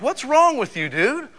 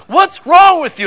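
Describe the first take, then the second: First: Raised, higher scolding voice; scolding adult. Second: High, loud outraged mom shout; mock mom yell. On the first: Retold or imitated. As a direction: scold the kid, higher than usual. Teacher scolding a kid. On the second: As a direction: bellow it like a furious mother. Mom yelling at her son.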